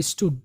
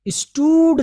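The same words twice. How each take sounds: First: STOOD said briefly, "is-tud"; short vowel. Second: STOOD with a long, loud drawn "oo"; overstretched vowel. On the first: Teacher modelling the right reading, short vowel. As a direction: say "स्टूड" with a short, unstretched u. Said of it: "नहीं पढ़ेंगे आप बहुत ज़्यादा खींच के". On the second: Teacher showing learners what to avoid, overstretched vowel. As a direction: stretch "स्टूड" out as "is-toood". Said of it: "बहुत ज़्यादा खींच के". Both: Shown as a demonstration.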